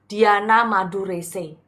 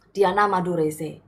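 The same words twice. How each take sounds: First: Diana Madurese spelled out slowly and clearly; plugging her channel name slowly; slow emphatic name. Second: Said in the usual way. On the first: Shown as a demonstration. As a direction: say Diana Madurese deliberately, word by word. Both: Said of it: "bantu dong di subscribe YouTube saya".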